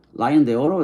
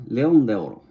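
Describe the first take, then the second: First: "Lion de Oro" with an English LIE-on; reading "Lion" like the English word; anglicized "Lion de Oro", lion as in the animal; English-style Lion. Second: "León de Oro" with Spanish leh-OHN; corrected to Spanish "León de Oro". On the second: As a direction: say "León" the Spanish way, two clear syllables. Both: Shown as a demonstration. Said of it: "Is it León de Oro, ¿verdad?".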